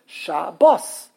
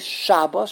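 First: The stress is on the last syllable. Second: The stress is on the first syllable. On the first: This is the Hebrew pronunciation. The speaker calls it right. "The last syllable is bos. So it's shabos" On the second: This is the Yiddish-influenced pronunciation. The speaker calls it wrong. "in Yiddish, every single word, the emphasis is on the first syllable"

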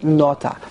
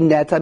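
First: The word has a changed, end-of-verse first vowel. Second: The word has its normal first vowel. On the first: The word ends the verse. "being that it's the end of the pasuk, so we pronounce it nota" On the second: The word is in the middle of a verse. "Normally it would be neta"

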